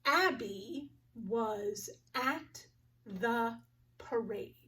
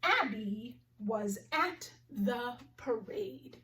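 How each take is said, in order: First: Very slow, word by word, ending in a whisper; slow word-count reading. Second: Slow, carefully spaced sentence; slow model sentence; slow clear reading. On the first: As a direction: count each word slowly. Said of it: "Let's count the words together". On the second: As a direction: read it slowly for the class. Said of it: "The first sentence I want to practice". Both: Shown as a demonstration.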